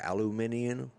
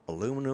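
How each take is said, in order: First: It is said with five syllables, British style. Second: It is said with four syllables, American style. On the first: "I probably butchered the second way" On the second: "It's aluminum here in the States"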